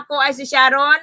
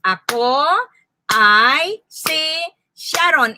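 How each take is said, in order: First: Said in the usual way. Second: "Ako ay si Sharon" drawn out, a beat on each word. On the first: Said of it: "Ilang salita mayroon sa pangungusap na". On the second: Shown as a demonstration. Teacher telling learners to clap, "Ako ay si Sharon" word by word. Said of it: "Okay, clap your hands".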